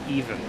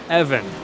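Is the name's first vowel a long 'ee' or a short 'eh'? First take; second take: long ee; short eh. First: The first vowel is a long 'ee' sound. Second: The first vowel is a short 'eh' sound. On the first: The speaker calls it wrong. "why have I been saying it even?" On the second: The speaker calls it right. "I've been saying that wrong for three weeks"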